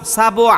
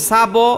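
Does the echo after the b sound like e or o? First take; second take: o; o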